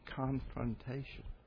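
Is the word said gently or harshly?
gently. The word is said softly and gently. The speaker wants to talk something over with care. The speaker calls it right. "Say confrontation"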